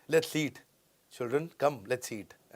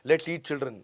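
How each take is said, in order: First: Put-on "Let's eat", a clear break, then "children" as an address; pause at comma. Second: Put-on "Let's eat children" as one run-on phrase; no comma. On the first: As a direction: stop after "eat" before calling "children". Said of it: "आओ बच्चों, साथ में खाना खाते हैं". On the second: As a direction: make "children" the object of "eat", no pause. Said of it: "आओ बच्चों को खा लेते हैं". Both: Shown as a demonstration.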